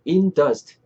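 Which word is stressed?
in. The stress falls on the word in. The speaker calls it wrong. "이렇게 알아듣겠지만"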